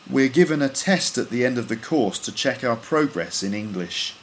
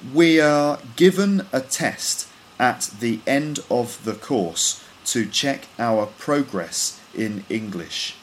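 First: The words run together as one linked sound. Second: Each word is pronounced separately, not linked. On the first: "Then I'll read them with all the words linked up" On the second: "I'll read each sentence once with all the words individually pronounced"

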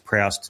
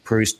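First: It is said with an Australian pronunciation. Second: It is said the standard, non-Australian way.

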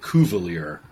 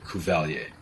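First: The name is said with an anglicized pronunciation. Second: The name is said with a French pronunciation. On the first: This is how the family and locals say it. "they say it Cuvelier" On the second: This is the name's original pronunciation. "but it's definitely Cuvelier"

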